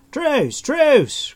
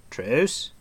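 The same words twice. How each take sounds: First: Very high, loud cry; calling for truce. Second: Tentative TRUCE with a rising tune; inquiring. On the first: Stranger under attack begging Taran to stop, crying out. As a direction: cry out for mercy at the top of the voice. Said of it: "crawled the stranger". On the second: Stranger venturing from behind the tree, asking tentatively. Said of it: "he inquired again". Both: A narrator's reading.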